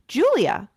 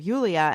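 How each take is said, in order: First: The name is said in an American way. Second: The name is said in a non-American way. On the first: "they say their their name in the American way" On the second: "We always called her Yulia"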